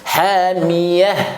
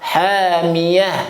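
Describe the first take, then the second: Both takes have the same delivery.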